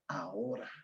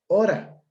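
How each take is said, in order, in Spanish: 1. La palabra se dice con todos sus sonidos. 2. Se omite el primer sonido de la palabra. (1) "Palabra correcta" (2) "palabra con aféresis"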